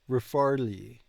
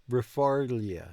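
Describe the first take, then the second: Both takes have the same delivery.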